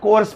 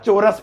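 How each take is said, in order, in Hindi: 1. शब्द की शुरुआत k की आवाज़ से होती है। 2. शब्द में s से पहले एक अतिरिक्त स्वर है। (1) "कभी से कोर्स पढ़ दो" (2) "या चोरस पढ़ दो"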